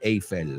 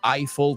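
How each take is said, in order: First: Eiffel is pronounced with Spanish sounds. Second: Eiffel is pronounced with English sounds. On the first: The speaker calls it wrong. "not Eiffel, as they say in Spanish" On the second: The speaker calls it right. "we say the Eiffel Tower"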